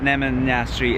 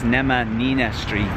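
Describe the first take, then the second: First: The name ends in a short 'nashtri' sound. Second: The name ends in 'nina' followed by 'street'. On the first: The speaker calls it wrong. "I was saying it wrong" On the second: The speaker calls it right. "it's Nemanina Street"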